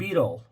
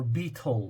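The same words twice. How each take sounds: First: It is said in a non-British accent. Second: It is said in a British accent.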